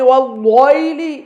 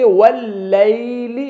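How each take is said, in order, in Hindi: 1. L को भारी और मोटा बोला जाता है। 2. L को हल्का और पतला बोला जाता है। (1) "नहीं पढ़ेंगे, लाम को मोटा नहीं करेंगे" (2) "लाम बारीक पढ़ा जाएगा"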